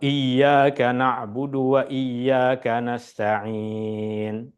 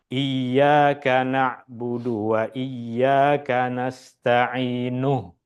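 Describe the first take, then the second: First: The last word ends on a bare 'n'. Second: The last word ends with an added 'u' vowel. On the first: The reader stops at the end of the verse. "Stop, berhenti" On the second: The reader connects to the next verse. "Maka jika kita baca sambung"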